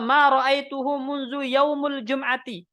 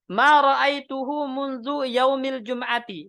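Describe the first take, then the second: First: The word yaum ends with a u vowel. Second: The word yaum ends with an i vowel. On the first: Munzu works as a noun of time here. "yaumu sebagai khobar" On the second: Munzu works as a preposition here. "dengan majrur"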